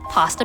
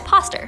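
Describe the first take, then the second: First: It ends in a plain vowel with no R. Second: It ends with an added R sound.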